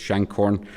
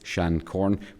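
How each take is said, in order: First: The name is said in its local pronunciation. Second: The name is said in its formal pronunciation. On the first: This is how people locally say the name. "we refer to it as Shancorn" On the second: This is the original form of the name. "the correct pronunciation of it is Shancorn"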